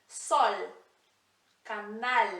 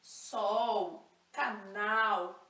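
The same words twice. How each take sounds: First: Sol, canal with a clear l, tongue on the palate; Spanish final L. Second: Sol, canal with the l turned into u, sou, canau; Brazilian final L. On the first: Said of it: "mesmo L do início". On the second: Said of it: "a gente puxa para um U". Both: Shown as a demonstration.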